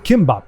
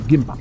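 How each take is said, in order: First: The word begins with a voiceless K sound. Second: The word begins with a voiced G sound. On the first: "or Kimbop as it's often pronounced" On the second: "I'm gonna say it's Gimbop"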